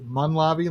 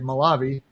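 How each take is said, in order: First: There is an n sound after the first vowel. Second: There is no n sound after the first vowel. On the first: "like there's an N" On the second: "I should say Malavi"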